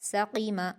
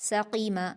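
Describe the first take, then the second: No difference in how they are said.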